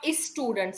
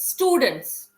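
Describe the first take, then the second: First: An extra vowel sound comes before the s. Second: The word begins directly with the s sound. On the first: The speaker calls it wrong. "not is students" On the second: The speaker calls it right. "it does not start with A. It's S"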